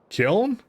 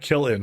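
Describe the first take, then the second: First: The word is said as one syllable. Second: The word is said as two syllables. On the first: The speaker calls it right. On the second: The speaker calls it wrong.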